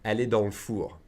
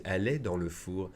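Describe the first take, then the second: First: "dans le four" run together as "dans l'four"; fast, le as l'. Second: "dans le four" with every syllable said; careful full version. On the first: Teacher showing the quick spoken form. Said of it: "if I say it fast". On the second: Teacher showing the version people won't use. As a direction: say "elle est dans le four" fully, e kept. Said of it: "don't expect people to say". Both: Shown as a demonstration.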